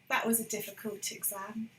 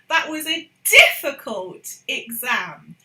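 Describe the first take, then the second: First: The word difficult is said without emphasis. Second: The word difficult is strongly emphasized.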